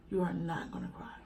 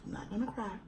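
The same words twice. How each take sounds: First: Whispered self-talk. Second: Much softer, fighting off tears; holding back tears. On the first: Scolding herself not to cry on camera, whispered. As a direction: whisper to yourself to hold back tears. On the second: Telling viewers she won't cry, hushed and choked up. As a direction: say it very softly to keep from crying. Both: Real, not acted. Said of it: "I'm gonna try not to cry".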